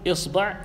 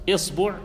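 The two takes are said the same way.

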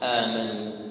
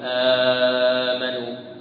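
First: The first vowel is kept short. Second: The first vowel is stretched out long. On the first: This follows the speaker's own reading tradition. The speaker calls it right. "إنما نقرأها بالقصر" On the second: This follows a different reading tradition. The speaker calls it wrong. "أنا أقول آمنوا كورش مثلا"

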